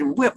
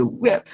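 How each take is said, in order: First: Put-on high little-kid voice saying the word; a small child proudly saying one word; imitating a child. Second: Put-on high baby voice saying the word, falling off; a toddler trying the word; imitating a baby. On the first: Preacher mimics a child saying the word, high-pitched. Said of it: "It said". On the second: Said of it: "My baby said".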